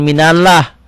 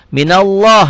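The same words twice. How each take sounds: First: The a in Allah sounds thin and light. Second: The a in Allah sounds thick, like o. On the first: The speaker calls it wrong. "jangan minallah" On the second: The speaker calls it right. "Memang nggak ada o-nya, tapi seperti ada o-nya"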